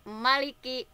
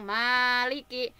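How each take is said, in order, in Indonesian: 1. Vokal pertama pendek. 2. Vokal pertama panjang. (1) "maknya dibaca pendek" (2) "Kalau dibaca panjang"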